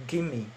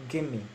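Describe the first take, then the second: Both takes have the same delivery.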